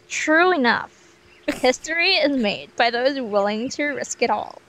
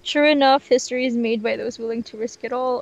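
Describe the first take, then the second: First: It is spoken in an American accent. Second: It is spoken in a non-American accent.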